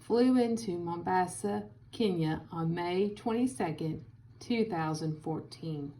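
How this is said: It is read with short pauses between phrases. "Now, with commas"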